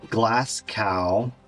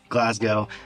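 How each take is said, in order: First: It is said with an American accent. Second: It is said with the local pronunciation. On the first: The speaker calls it wrong. "I have to read this with the American accent" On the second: The speaker calls it right. "I know how to say it correctly"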